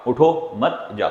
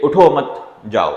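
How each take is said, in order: First: उठो set apart, then मत जाओ; slow, with the break after उठो, before मत जाओ; pause after उठो. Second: उठो मत run together, pause, then जाओ; pause after मत. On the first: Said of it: "उठो के बाद आपने लगाया". (उठो के बाद विराम, फिर मत जाओ) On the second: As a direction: break after मत, before जाओ, higher and louder. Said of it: "के बाद जो है". (उठो मत के बाद विराम, फिर जाओ) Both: Shown as a demonstration.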